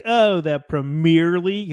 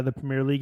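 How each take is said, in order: First: Drawn-out mimicry of an American accent; mocked American accent. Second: Said in the usual way. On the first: Scouser teasing an American fan, mocked American accent. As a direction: slowly parody the American way of saying it. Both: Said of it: "he made fun of my accent".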